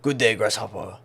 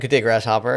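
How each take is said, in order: First: It is said in a put-on character voice. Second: It is said in the speaker's normal voice. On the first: It imitates the character's way of speaking. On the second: It avoids imitating the character.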